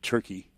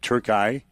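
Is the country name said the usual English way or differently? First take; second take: usual; different. First: The name is said the usual English way. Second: The name is said with a different pronunciation. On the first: This is the familiar name. "It wasn't Turkey" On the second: This is how the announcers said it. "the announcers were saying something different"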